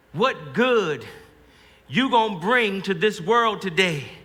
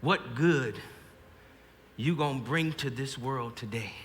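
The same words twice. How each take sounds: First: Fuller, insistent remembered mother's voice; slow, drawn-out motherly challenge; Ma's voice. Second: Soft, low remembered mother's voice; Ma's voice. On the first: Soldier hears Ma's question as he faces the Indian, insistent mother. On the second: Soldier at the line hears Ma's voice, softly recalled mother. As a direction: lower and hushed, a mother heard in memory. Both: Acted. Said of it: "I hear Ma's voice".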